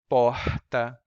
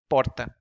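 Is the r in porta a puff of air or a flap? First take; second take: puff of air; flap. First: The r is a breathy puff of air. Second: The r is a single quick tongue flap. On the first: "It's just a puff of air, as in porta" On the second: "they would say porta with a quick flap"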